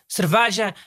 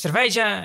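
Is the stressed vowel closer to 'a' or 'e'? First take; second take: a; e. First: The stressed vowel sounds like an 'a'. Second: The stressed vowel sounds like an 'e'. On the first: This is how people from Lisbon say it. The speaker calls it wrong. "Dizem cerveja" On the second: This is how it should be said. The speaker calls it right. "em vez de cerveja"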